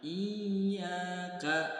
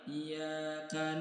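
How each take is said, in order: First: The y sound is doubled and pressed. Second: The y sound is single and light. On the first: The speaker calls it right. "Ingat di huruf ya ada tasydid" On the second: The speaker calls it wrong. "Jangan sampai"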